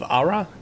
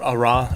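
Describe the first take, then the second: First: The stress is on the first syllable. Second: The stress is on the second syllable. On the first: "I hope I'm saying that right" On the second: "a little more emphasis on that second syllable"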